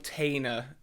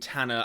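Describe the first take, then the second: First: The first vowel sounds like the one in 'tail'. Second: The first vowel sounds like the one in 'tan'. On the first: The speaker calls it wrong. "I say Bill Tainer in um, some of these videos" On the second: The speaker calls it right. "rather than Tanner, as they say in the films"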